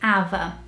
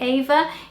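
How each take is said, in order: First: The name is said with Brazilian Portuguese pronunciation. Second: The name is said with English pronunciation. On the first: "If they read this name, they would definitely say Ava" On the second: "unless you taught them to say Ava"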